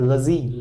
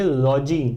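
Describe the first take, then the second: First: The first vowel is a reduced 'uh' sound. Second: The first vowel is a full 'o' sound. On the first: The speaker calls it right. "ये हो सकता है लजी" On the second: The speaker calls it wrong. "बहुत सारे लोग इसको आपको देखते बोलते दिख जाएंगे लॉजी"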